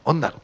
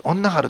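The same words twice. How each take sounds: First: 恩なる said without any は; 恩なる, clean with no は, the right Nagasaki way; 恩なる, no extra は; corrected dialect form. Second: 恩なはる said with an extra は; 恩なはる, the は slipped in, marked as the wrong way; 恩なはる with the mistaken は sound; wrong dialect form. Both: Shown as a demonstration. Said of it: "歯を入れちゃいけない".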